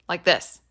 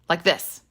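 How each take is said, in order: The two takes are said the same way.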